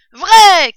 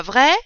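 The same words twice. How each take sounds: First: «Vrai» hurlé, haut, en retombant; réponse criée. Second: «vrai» avec intonation montante; question. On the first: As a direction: confirme en criant à pleine voix. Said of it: "crièrent-ils". (cri d'approbation très fort et aigu) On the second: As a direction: demande confirmation sur «vrai», en montant. Question posée avant la réponse criée. («vrai» interrogatif, lancé à l'assemblée) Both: A narrator's reading.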